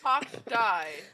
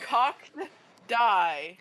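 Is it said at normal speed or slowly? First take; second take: normal; slowly. First: It is said at normal speed. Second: It is said slowly.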